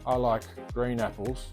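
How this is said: The voice sounds let down and deflated. The speaker wanted green apples but was offered red ones.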